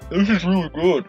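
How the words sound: It is said with a full mouth, muffled.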